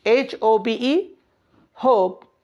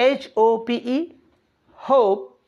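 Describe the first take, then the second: No difference in how they are said.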